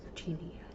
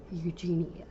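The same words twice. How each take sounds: First: Eugenia whispered, no voice; whispering. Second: Said in the usual way. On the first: Real, not acted. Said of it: "I'm whispering". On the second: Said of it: "Why am I stuttering?".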